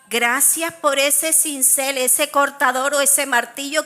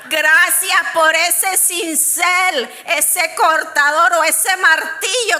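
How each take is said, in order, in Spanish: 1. La frase se dice rápido. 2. La frase se dice más despacio.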